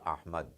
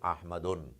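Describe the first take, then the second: First: The name ends without any added 'n' sound. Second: The name ends with an added 'un' sound. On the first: The speaker calls it right. "you say Ahmad" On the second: The speaker calls it wrong. "You do not say Ahmadun"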